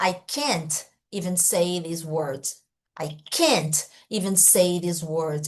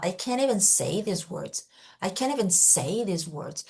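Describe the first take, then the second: First: Slow, "can't" with a full T and a break after it; over-separated can't. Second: "can't even" run together, T dropped; linked can't even. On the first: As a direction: punch out "can't", stop, then go on slowly. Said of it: "ela não fala". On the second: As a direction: glide from "can't" into "even" without a T. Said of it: "ela fala". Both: Shown as a demonstration.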